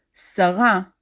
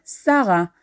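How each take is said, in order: First: Sarah as "sa-RA"; last syllable stressed. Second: Sarah as "SA-ra"; first syllable stressed. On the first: Teacher giving the Hebrew name, Sarah stressed as "sa-RA". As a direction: Hebrew Sarah, weight on the end, "sa-RA". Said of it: "or in Hebrew". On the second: Teacher giving the common variant, Sarah stressed as "SA-ra". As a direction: Hebrew Sarah, weight up front, "SA-ra". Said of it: "depending on what syllable is stressed". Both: Shown as a demonstration.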